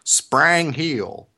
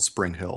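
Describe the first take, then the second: First: It is said in a heavy Southern accent. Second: It is said in a plain, neutral accent.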